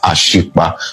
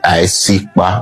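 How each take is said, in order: First: The middle consonant is an sh sound. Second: The middle consonant is a plain s sound. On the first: This is a form changed by outsiders. The speaker calls it wrong. "not Ashikpa" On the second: This is the original local form of the name. The speaker calls it right. "So you say Aisikpa"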